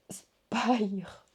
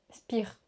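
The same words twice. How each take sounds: First: "spire" said as "spaïr"; English-style attempt. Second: "Spire" said as "spir"; French-style attempt. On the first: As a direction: try "spire" with a long English i, like "eye". (« spire » prononcé « spaïr », à l'anglaise) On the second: (« Spire » prononcé « spir », à la française) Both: Real, not acted. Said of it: "j'ai un très bel accent anglais".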